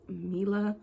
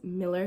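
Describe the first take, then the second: First: The name ends in an open 'ah' vowel. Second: The name ends in an 'er' sound. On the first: The speaker calls it wrong. "A lot of people think my name is pronounced Mila" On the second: The speaker calls it right. "but it's Miller, like Miller Lite"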